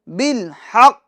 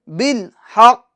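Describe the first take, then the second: Both takes have the same delivery.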